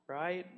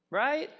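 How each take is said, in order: First: Said in the usual way. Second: High, loud rising "Right?"; high excited check with the crowd. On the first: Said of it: "repeat softer". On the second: Real, not acted. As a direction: pull the room in with a sharp rising question. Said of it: "asks congregation".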